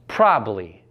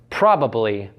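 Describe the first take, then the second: First: A consonant sound is dropped. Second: All the consonant sounds are pronounced. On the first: "when dropping these sounds becomes" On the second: "found in words like"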